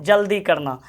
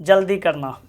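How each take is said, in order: Both takes have the same delivery.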